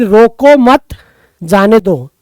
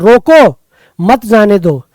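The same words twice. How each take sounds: First: The pause comes after 'mat'. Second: The pause comes after 'roko'.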